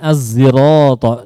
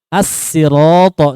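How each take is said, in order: First: It starts with a thick, emphatic z sound. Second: It starts with a thin, plain s sound. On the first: "dengan zai ishmam" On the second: "dengan sin"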